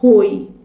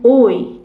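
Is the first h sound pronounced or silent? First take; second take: pronounced; silent. First: The word begins with an audible h sound. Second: The word begins directly with the vowel. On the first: The speaker calls it wrong. "اینجا نمیگم" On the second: The speaker calls it right. "میگم"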